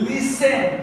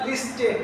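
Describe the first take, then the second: First: The s runs straight into the vowel. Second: A t sound is heard after the s. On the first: The speaker calls it right. "It is লিসেন" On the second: The speaker calls it wrong. "It is not"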